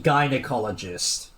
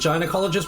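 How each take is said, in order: First: The G is hard, as in game. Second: The G is soft, like a J. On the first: "the G in gynecologist is pronounced the way it sounds in game" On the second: "that's how I've been saying it my entire life"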